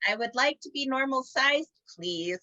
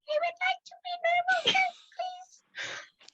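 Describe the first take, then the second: First: It is said in a normal voice. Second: It is said in a tiny squeaky voice.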